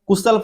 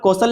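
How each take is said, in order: First: It is said kushal, with a short first vowel. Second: It is said kaushal, with no extra final vowel. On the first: The speaker calls it wrong. "कुशल पढ़ दें" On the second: The speaker calls it right. "यहाँ पर कौशल लिखा है"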